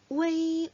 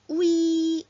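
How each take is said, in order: First: A faint e-like vowel is heard before i. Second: A plain u glides straight into i. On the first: The speaker calls it right. "이가 살짝 들리는 소리가 중국 분들한테는 날 거예요" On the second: The speaker calls it wrong. "우이라고 할 것 같지만"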